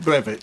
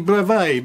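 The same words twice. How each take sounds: First: The word is said with an English pronunciation. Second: The word is said with a French pronunciation. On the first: This is how many people commonly say it. "I think a lot of people call it brevet" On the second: This is how the original language says it. "It's a French word, so it probably ought to be brevet"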